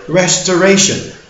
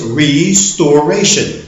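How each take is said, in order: First: The first part sounds like the word rest. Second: The first part sounds like the word restore. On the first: The speaker calls it wrong. "a lot of people pronounce this word restoration. Mm-mm. No one is resting here" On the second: The speaker calls it right. "it is to restore. So the word is restoration"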